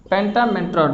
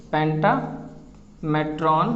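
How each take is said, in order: First: Said in the usual way. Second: पेंटामेट्रॉन slowly drawn out, syllable by syllable; drawn-out word. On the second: Shown as a demonstration. Teacher drawing out the Latin word for students, slowly. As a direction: stretch पेंटामेट्रॉन out slowly for the class. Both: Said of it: "M E T R O N".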